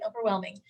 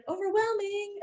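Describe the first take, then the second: First: Said in the usual way. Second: Overwhelming pitched up high and stretched out; overwhelming sung out high and long, then dropped; emphatic. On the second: Real, not acted. Complaining about busy websites.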